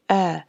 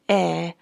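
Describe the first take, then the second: First: The vowel is made with a middle, vertical opening. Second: The vowel is made with lips spread sideways. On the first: The speaker calls it right. "open your mouth uh, vertically" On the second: The speaker calls it wrong. "do not open your mouth sideways. Don't say eh"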